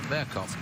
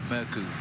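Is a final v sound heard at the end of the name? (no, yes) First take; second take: yes; no. First: The name ends with a v/f sound. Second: The name ends without a v/f sound. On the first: The speaker calls it wrong. "they don't pronounce the V on his name, which is Murkoff" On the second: The speaker calls it right. "so from now on, it's Morkou"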